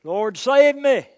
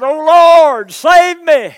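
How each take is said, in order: First: Cry for help. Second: Full-voiced shout, high and loud; a sinking man screaming to the Lord; desperate cry for help. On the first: Acted. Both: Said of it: "And he cried out".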